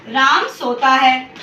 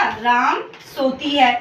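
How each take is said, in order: First: Says Ram सोता है slowly and clearly; slow example sentence. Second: Says Ram सोती है slowly, ending on a falling है; slow wrong example. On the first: Teacher reading the correct example to the class slowly. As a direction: read out slowly as a model sentence. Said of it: "अगर आपको बोलूँ". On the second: Teacher reading the wrong example to the class slowly. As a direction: read out slowly as the faulty sentence. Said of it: "मैंने दूसरा लिख दिया". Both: Shown as a demonstration.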